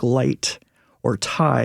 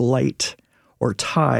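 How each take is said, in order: First: The vowels glide, as in a Northern accent. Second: The same.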